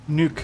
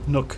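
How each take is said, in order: First: The vowel is long, as in 'nuke'. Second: The vowel is short, as in 'book'. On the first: It copies how someone else pronounces the word. "Nuke instead of nook" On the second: It is the speaker's usual pronunciation of the word. "instead of nook"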